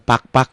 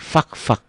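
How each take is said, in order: First: The place name begins with a p sound. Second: The place name begins with an f sound. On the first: The speaker calls it wrong. "bukan pak-pak" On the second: The speaker calls it right. "di Irian Jaya itu fak-fak"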